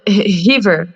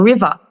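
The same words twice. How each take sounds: First: The word ends with an r sound. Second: The word ends with an open ah sound.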